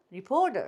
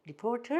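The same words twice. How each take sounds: First: 리포터 said "ri-po-der". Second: 리포터 softer, with a distinct t; clear t. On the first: Teacher repeating reporter drill, t as d. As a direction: soften the t in 리포터 to d. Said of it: "드 소리에 가깝게도 한다". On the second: Teacher repeating reporter drill, clear t. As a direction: keep the t in 리포터. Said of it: "다시 해보시죠". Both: Shown as a demonstration.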